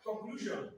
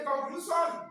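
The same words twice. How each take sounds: First: Said in the usual way. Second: Put-on Yoruba-accented "conclusion", SH turned to S. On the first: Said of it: "instead of what?". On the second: Teacher mimicking Yoruba speakers for the class, Yoruba accent. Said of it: "They cannot call S H properly".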